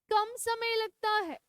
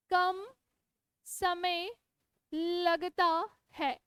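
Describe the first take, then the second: First: Said in the usual way. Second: Each word set apart with pauses, slow; slow dictation. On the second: Shown as a demonstration. Teacher dictating notes to her students, slow and word by word. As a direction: spell it out word by word so they can write. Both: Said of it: "मेरे साथ साथ लिखो".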